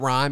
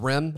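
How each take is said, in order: First: The vowel is a long 'eye' sound. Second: The vowel is a short 'i' sound. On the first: The speaker calls it wrong. "It's not Rhyme" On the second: The speaker calls it right. "It's Rim"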